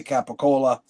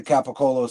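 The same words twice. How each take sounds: First: "Capicola" with a final "ah" sound; Capicola ending in A. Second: "Capicolo" with a final "oh" sound; Capicolo ending in O. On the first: Comparing what people say, "Capicola" with final ah. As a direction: end "Capicola" on an open A. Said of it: "some say Capicola". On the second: Comparing what people say, "Capicolo" with final oh. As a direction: end "Capicolo" on a long O. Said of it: "Some people say Capicolo". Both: Shown as a demonstration.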